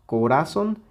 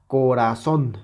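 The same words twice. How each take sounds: First: "Corazón" stressed on "ra", not "zón"; sin fuerza en la última. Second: "corazón" with strong final "zón"; acento en la última sílaba. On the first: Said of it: "si quitamos la intensidad a la última sílaba". ("Corazón" con el golpe en "ra") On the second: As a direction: land firmly on "zón" in "corazón". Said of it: "aquí está la sílaba tónica". ("corazón" con fuerza en "zón") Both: Shown as a demonstration.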